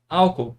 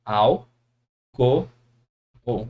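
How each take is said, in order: First: Álcool said whole, as "awkol" in everyday speech; natural pronunciation. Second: Al, co, o spaced apart, each syllable separate. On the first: Teacher to students, showing everyday pronunciation of álcool. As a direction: say álcool as people really say it. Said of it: "A gente pronuncia". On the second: Teacher to students, splitting álcool into syllables. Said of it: "Dá uma olhada". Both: Shown as a demonstration.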